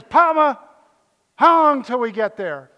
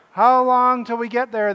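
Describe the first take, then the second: First: Put-on high, loud little-girl whine; little granddaughter. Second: Put-on loud, high whine of bored kids in the car; whining kids. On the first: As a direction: plead "Papa" like a small child. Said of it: "my granddaughter went like this". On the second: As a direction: kids nagging dad from the back seat, high and loud. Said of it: "they would say".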